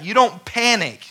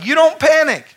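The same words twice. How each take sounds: First: "don't" stressed, moderately raised preaching; first statement of "You don't panic" with "don't" stressed; "You don't panic" with a firm hit on "don't". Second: "You don't panic" much higher and louder, "don't" punched; loud, high preached repeat of "You don't panic"; shouted repeat. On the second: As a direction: hammer the repeat home. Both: Acted.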